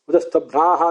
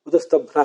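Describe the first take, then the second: First: The vowel before the final h is long. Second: The vowel before the final h is short. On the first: It conveys completeness or fullness. "ದೀರ್ಘ ಇದೆಯಲ್ಲ" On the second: It is the plain grammatical form. "ಹ್ರಸ್ವ ಇರ್ತದೆ"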